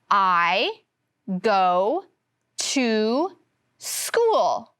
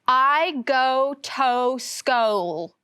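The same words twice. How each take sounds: First: Go has a long O; to has oo. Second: Both go and to have a long O. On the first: The speaker calls it right. "In go, the O makes the long O sound. But in to, the O makes the oo sound" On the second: The speaker calls it wrong. "reading it with the long O sound"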